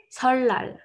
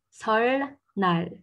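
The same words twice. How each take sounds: First: "설날" as seol-lal, one long l and no n; louder, higher "설날" with the n turned into l; assimilated double L. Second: "설날" syllable by syllable, an l then a separate n; slow, drawn-out "설날" keeping the n sound; literal reading. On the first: Teacher giving learners the correct sound, emphatic demo. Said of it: "au lieu de dire 설날, on va dire". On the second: Teacher reading it without any rule, slow literal demo. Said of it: "si je le lis littéralement sans suivre aucune règle". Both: Shown as a demonstration.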